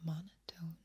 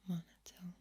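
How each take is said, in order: Both takes have the same delivery.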